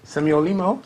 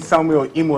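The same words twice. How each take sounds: First: It is said in a foreign-sounding accent. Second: It is said in an ordinary Nigerian accent.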